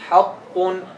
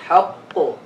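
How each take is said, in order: First: The word ends with a nasal 'un' sound. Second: The word ends on a bare, bouncing consonant. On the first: The word continues into what follows. "That's if you connect" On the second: The reader pauses at the end of the word. "How do you stop on it?"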